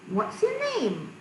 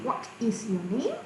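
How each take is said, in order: First: 'What is' is shortened to one syllable. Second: 'What is' is said as two full words.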